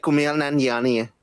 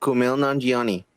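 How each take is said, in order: First: Kumail Nanjiani in its native accent; native-accented version of the name; real accent. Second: Kumail Nanjiani in an American accent; American-accented name, matter-of-fact. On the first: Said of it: "the real accent would be like". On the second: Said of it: "I'm doing the fucking American accent". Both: Shown as a demonstration.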